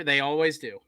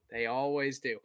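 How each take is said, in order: First: Said in the usual way. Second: "They always do" repeated softer, almost to himself; resigned repeat. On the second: Real, not acted. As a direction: mutter it again under your breath, resigned. Quieter muttered repeat.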